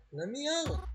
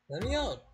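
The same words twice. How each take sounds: First: Much higher pitch, rising at the end; higher desperate scream. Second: Desperate cry. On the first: Trapped in a coffin, begging Reginald, higher scream. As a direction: push the plea up into a shriek. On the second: Trapped, screaming for help. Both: Acted.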